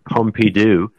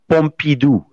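First: It is said with an English accent. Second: It is said with a French accent.

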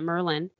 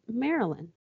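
First: The name is squeezed into two syllables, Southern-style. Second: The name has three full syllables, without Southern accent.

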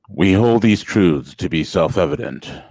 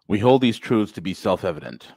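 First: It is read in a put-on deep voice. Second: It is read in a normal voice.

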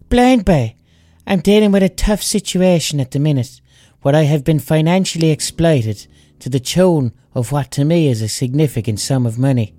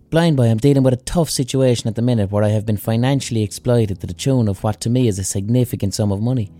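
First: It is read in the Trout of No Crack's voice. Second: It is read in the speaker's own voice.

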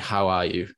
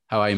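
First: It is asked slowly and earnestly, with real interest. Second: It is asked quickly and casually, in passing.

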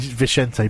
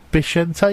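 First: The name begins with a V sound. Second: The name begins with a B sound. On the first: The speaker calls it wrong. "I keep saying Vicente" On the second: The speaker calls it right. "You pronounce it a B in Spanish"

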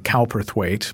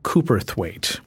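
First: The name is said the American way. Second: The name is said the British way.

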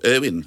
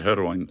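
First: The name is said the newer, younger way. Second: The name is said the older, traditional way. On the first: This is how the younger generation says it. "as the kids now call it" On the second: This is how the older generation says it. "my aunt and uncle used to say it that way"

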